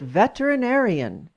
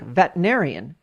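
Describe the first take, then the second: First: All six syllables are said distinctly. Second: The second syllable is slurred into the third. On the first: The speaker calls it right. "had I been more precise, I would have pronounced it" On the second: The speaker calls it wrong. "I may have slurred the second syllable into the third, thus sounding like"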